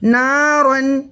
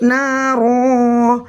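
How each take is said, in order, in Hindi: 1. शब्द "n" की आवाज़ से खत्म होता है। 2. शब्द लंबे स्वर से खत्म होता है। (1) "रा दो ज़बर रन" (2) "आगे वक्फ"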